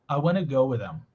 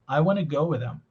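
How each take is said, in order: Both takes have the same delivery.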